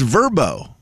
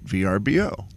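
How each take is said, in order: First: It is said as a single word. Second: It is spelled out letter by letter. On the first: The speaker calls it right. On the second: The speaker calls it wrong.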